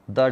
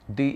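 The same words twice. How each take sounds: First: The vowel of 'the' sounds like 'uh'. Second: The vowel of 'the' sounds like 'ee'. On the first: "pronounced it as uh" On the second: "if it precedes or comes before a vowel sound, it would be pronounced as the"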